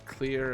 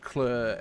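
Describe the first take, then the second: First: It is said in the speaker's own accent. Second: It is said in a South African accent.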